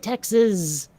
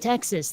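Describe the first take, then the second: First: The word ends with a buzzing z sound. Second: The word ends with a plain s sound. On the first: This is how people in Texas say it. "like there's a Z at the end of it" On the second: This is how outsiders say it. "they don't say Texas"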